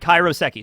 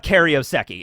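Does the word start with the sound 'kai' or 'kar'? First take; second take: kai; kar. First: The word starts with 'kai', then 'roh'. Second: The word starts with 'kar', then 'ee-oh'. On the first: The speaker calls it right. "it's actually pronounced Kairoseki" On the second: The speaker calls it wrong. "I always mispronounce it"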